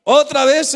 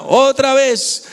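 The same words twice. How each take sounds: First: Said in the usual way. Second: Otra vez stretched out slowly, weight on otra; slow stressed repeat. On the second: Shown as a demonstration. Preacher repeating otra vez slowly to the congregation. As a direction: drag out otra vez to press the point. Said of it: "Otra vez ella clama".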